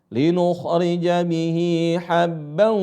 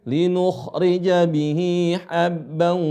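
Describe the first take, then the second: Both takes have the same delivery.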